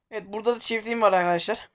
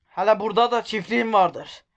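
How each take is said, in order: First: Said in the usual way. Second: Black Sea accent. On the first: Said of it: "şiveye geçtim". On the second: Shown as a demonstration. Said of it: "Evet, şiveye geçtim".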